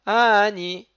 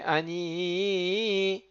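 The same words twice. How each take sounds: First: Ani said loudly, slowly, the first syllable stressed; wrong stress. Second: Ani slowed right down, ni drawn long; lengthened ni. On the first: Teacher contrasting the wrong stress on Ani. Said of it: "C'est pas". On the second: Teacher showing the long final syllable ni. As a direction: draw out ni of Ani. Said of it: "rallonger sur le Ni". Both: Shown as a demonstration.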